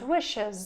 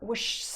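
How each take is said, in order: First: The ending has a vowel before the s. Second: The ending is a bare s with no vowel. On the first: The speaker calls it right. "and wishes" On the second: The speaker calls it wrong. "it would be horrible if you needed to say kiss or wish"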